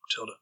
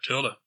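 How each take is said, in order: First: The name is said quietly. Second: The name is said loudly.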